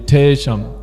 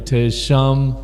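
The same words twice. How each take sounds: First: The stress is on the first syllable. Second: The stress is on the second syllable. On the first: The speaker calls it wrong. "it's not going to be" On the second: The speaker calls it right. "if there's a stress on the second syllable, it's going to be"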